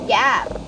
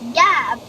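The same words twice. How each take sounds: First: The word is said in a British accent. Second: The word is said in an American accent. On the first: "but in British it's called" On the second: "It's pronounced in U S"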